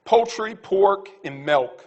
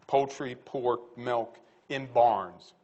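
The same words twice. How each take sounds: First: Louder, punched list of words; emphatic list. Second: Very slow, lower, spaced-out list. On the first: Speaker closing his talk, announcing a punchy list. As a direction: announce each item firmly. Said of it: "I'm gonna say one last thing". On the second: Speaker to audience, slowly spelling out his point. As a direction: lay each word down deliberately. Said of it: "slowed listing of the same items". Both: Real, not acted.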